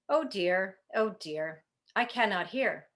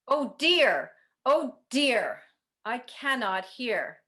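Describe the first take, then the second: First: It is said at volume level two. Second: It is said at volume level four.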